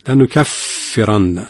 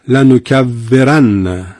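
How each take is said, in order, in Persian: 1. f همسه و فقط با نفس ادا میشه. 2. f جهر داره و مثل v ادا میشه. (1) "پس اون همسش باید بیاد" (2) "ما الان به ف در واقع جهر دادیم و خرابش کردیم و به واو فارسی تبدیل شد"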